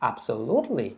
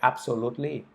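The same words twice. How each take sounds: First: It is said lively, with rising and falling pitch. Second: It is said flat, with no pitch movement. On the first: The speaker calls it right. "แต่ถ้าเราอ่านแบบมี accent แล้วก็โทนเสียง" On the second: The speaker calls it wrong. "ถ้าเราอ่านตรงๆแบบไม่มีอะไรเลย"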